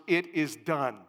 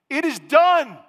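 First: Said in the usual way. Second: Shouted high and loud; exclamation point. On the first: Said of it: "natural exclamation points". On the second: Shown as a demonstration. Preacher booming the angel's words to his congregation, shouted. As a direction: hit it like a thunderclap. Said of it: "Exclamation point".

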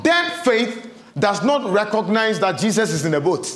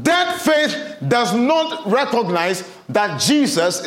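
First: Said in the usual way. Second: DEAD stressed, slow measured phrasing; slow emphasis. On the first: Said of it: "first take". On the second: Shown as a demonstration. Preacher repeating the point slowly to the congregation. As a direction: drive the words home slowly. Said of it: "repeats sentence slowly".

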